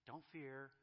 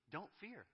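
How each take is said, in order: First: "don't fear" as a tender reassurance; gentle don't fear. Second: "Don't fear" much higher and firm, a blunt command; God commanding his children, forceful; confrontational don't fear. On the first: Pretend. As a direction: ease "don't fear" out like calming a scared child. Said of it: "he really doesn't do that". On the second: Retold or imitated. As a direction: snap "Don't fear" as a challenge. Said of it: "that tone of confrontation".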